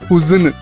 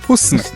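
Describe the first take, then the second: First: An extra vowel separates the s and n. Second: The s and n join with no vowel. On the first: The speaker calls it wrong. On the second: The speaker calls it right.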